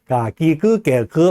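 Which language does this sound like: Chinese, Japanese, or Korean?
Chinese. The syllables are said with a Chinese-like accent. "하면은 중국어 같은 그런 느낌이 들잖아요"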